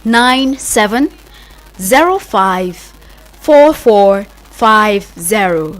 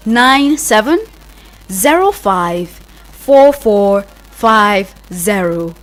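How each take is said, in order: Both takes have the same delivery.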